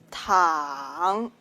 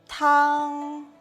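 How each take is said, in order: First: The pitch dips low then rises. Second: The pitch stays high and level. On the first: It means to lie down. "Tongue can mean to lie down" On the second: It means soup. "Tongue can mean the soup"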